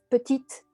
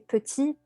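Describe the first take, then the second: First: The final T is pronounced. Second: The final T is silent. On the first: The speaker calls it wrong. "j'entends souvent" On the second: The speaker calls it right. "c'est petit et le T est muet"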